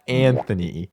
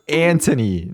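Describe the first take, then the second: First: The middle consonant is a th sound. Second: The middle consonant is a plain t sound. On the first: The speaker calls it wrong. "not Anthony" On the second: The speaker calls it right. "my name is Anthony"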